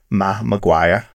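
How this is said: The R and K sounds are dropped.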